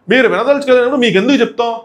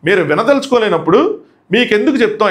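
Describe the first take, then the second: First: మీరు వినదలుచుకోలేనప్పుడు మీకెందుకు చెప్తాం said higher, a mild retold raised voice; a bit louder. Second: Said in the usual way. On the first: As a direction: imitate him raising his voice a little. (కొంచెం గట్టిగా) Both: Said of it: "ఇక్కడ కొంచెం గట్టిగా మాట్లాడు".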